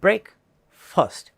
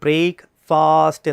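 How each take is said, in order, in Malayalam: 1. രണ്ടാമത്തെ സിലബിളിന് ചെറിയ, ലഘുവായ സ്വരമുണ്ട്. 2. രണ്ടാമത്തെ സിലബിളിന് നീണ്ട, വലിച്ചുനീട്ടിയ സ്വരമുണ്ട്. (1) "കറക്റ്റ് പ്രൊനൗൺസിയേഷൻ" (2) "അത് നീട്ടേണ്ട കാര്യമില്ല, അത് മിസ്പ്രൊനൗൺസിയേഷനാണ്"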